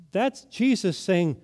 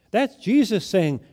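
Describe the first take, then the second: No difference in how they are said.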